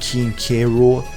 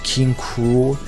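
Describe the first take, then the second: First: The K is said as a separate letter. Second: The K blends into one word, 'Cruel'. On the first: The speaker calls it wrong. "I've been saying it wrong this entire time" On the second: The speaker calls it right. "apparently it's supposed to be pronounced King Cruel"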